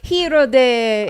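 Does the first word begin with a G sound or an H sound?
H sound. The first word starts without a G sound. "if you're t- talking Italian, you don't pronounce the G"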